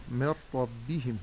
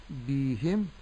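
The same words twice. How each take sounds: First: من ربهم as mir-rabbihim with short i vowels; short kasra. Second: بهم with bi stretched to bee; lengthened kasra. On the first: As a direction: keep the bi of من ربهم brief. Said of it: "ولكن أقول". («من ربهم» بكسرة باء قصيرة) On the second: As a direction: wrongly drag the bā's kasra in بهم. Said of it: "لا أقول". («بهم» بإشباع كسرة الباء) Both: Shown as a demonstration.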